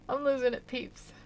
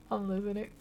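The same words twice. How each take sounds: First: LOSING pushed up high and loud; higher, louder exclaim. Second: Said in the usual way. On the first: Real, not acted. Streamer telling viewers she is cracking up, louder higher cry. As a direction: raise your voice on "losing".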